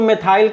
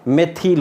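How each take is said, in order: First: The second syllable has an 'eye' vowel. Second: The second syllable has a short 'ih' vowel. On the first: "अंग्रेजी में तो हम इसको मेथाइल कहते हैं" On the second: "हिंदी में इसका प्रोनाउंसिएशन मेथिल होता है"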